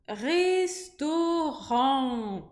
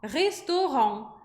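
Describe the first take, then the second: First: The last syllable is stretched out slowly. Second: The last syllable is said quickly. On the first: "Eu tô fazendo uma sílaba bem alongada" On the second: "falando esse on rapidinho"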